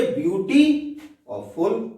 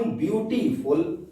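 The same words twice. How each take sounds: First: beauty and फुल said as two separate words; split into two words. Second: Said in the usual way. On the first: Shown as a demonstration. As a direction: break clearly after beauty, then give फुल on its own. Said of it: "दो अलग अलग शब्द हो गए". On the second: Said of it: "मैं शब्द बोल रहा हूं".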